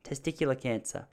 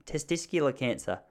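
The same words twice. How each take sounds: First: Said in the usual way. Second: Testicular with an extra s before the c; mispronounced testicular. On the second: Real, not acted. Boy fearing sudden illness, testicular fumbled as "testiscular". Stumbles, then says it again correctly.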